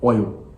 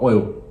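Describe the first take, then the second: First: The final L sound is almost dropped. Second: The same.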